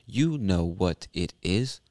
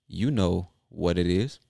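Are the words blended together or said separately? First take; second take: separate; blended. First: The words are said separately and carefully. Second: The words are blended together and said fast. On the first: "instead of saying" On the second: "just blend it together and make it fast"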